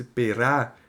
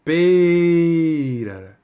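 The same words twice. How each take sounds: First: "perá" with the stress moved onto the final RÁ; stress on last syllable. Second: "Pera" called out loud, first syllable held very long; called-out stressed syllable. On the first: Teacher shows a hypothetical oxytone, "perá" stressed on RÁ. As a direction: land on the second syllable of "perá". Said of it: "Se fosse uma oxítona". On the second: Teacher calls the word to reveal its tonic syllable, "Pera" with long, loud PE. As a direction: stretch the PE in "Pera" as if calling it. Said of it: "Se você chamar pera, como é que você chama?". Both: Shown as a demonstration.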